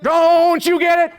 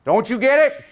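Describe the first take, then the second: First: Very high, slow, booming oratory; boy preacher at full force. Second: High, raised oratorical call; boy preacher like Martin Luther King Junior. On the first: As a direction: draw it out loudly like a child preacher rousing a crowd. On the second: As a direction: imitate a child opening a civil-rights speech. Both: Retold or imitated. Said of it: "Howard spoke like Martin Luther King Junior".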